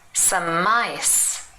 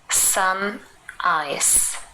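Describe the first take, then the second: First: The m links on, sounding like mice. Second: The two words are said separately.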